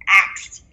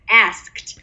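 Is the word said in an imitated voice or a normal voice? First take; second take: imitated; normal. First: The word is said in an imitated, put-on voice. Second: The word is said in the speaker's normal voice.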